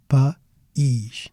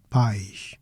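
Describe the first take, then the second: First: "País" split into pa, pause, EESH; two syllables. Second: "Pais" as one quick syllable, like "pie-sh"; single syllable diphthong. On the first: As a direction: break "País" apart, stressing the i. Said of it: "two syllables". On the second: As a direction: glide from stressed a into i in "Pais". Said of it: "different sound". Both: Shown as a demonstration.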